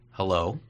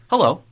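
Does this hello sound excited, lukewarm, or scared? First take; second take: lukewarm; excited. First: The hello sounds flat and lukewarm. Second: The hello sounds eager and excited. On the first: The speaker is indifferent to seeing the other person. "oh, hi" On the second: The speaker is happy to see the other person. "like I'm really excited to see you"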